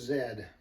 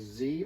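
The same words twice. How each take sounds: First: The letter is said the Canadian way, 'zed'. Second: The letter is said the American way, 'zee'.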